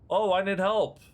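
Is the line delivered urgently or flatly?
flatly. It is said in an odd, flat voice.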